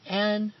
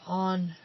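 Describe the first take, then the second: First: The name is said like 'Anne'. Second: The name is said like 'On'. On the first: "mispronounced as Anne Rand" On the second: "or On Rand"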